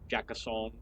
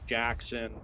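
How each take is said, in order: First: The name is said with three syllables. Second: The name is said with two syllables.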